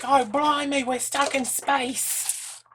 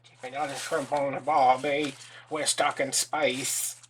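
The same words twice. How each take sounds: First: High, loud, hammed-up Australian wail; mock Australian accent. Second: Loud, drawn-out fake Australian; bad Australian accent. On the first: Imitating a crazy-acting actress stuck in space, hammed-up Australian accent. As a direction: exaggerate an Australian accent, stretching the last words. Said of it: "that crocodile accent they get". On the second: Crafter who can't do Australian trying anyway, bad Australian accent. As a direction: attempt Australian badly, dragging out the ending. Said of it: "I can't do Australian".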